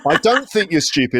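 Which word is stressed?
don't. The stress falls on the word don't. The denial is sincere.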